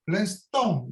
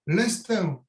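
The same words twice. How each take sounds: First: Said in the usual way. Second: Southern French Niçois vowel on "l'instinct"; Niçois accent. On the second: Real, not acted. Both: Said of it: "avec mon accent niçois".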